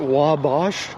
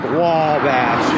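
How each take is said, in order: First: The first syllable's vowel is short and plain. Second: The first syllable's vowel is drawn out long. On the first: "Isn't it Wabash? No" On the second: "they just really elongate the, the W A, so it's like Wabash"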